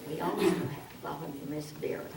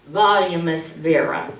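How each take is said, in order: First: Very soft, hurried mumble; no volume. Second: Said in the usual way. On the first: Shown as a demonstration. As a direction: introduce it almost inaudibly. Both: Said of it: "Vera has no volume".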